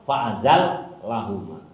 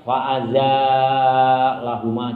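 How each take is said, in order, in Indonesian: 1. Vokal setelah z pendek. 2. Vokal setelah z panjang. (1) "kebanyakan ulama memakai ini bacaan" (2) "membaca panjang"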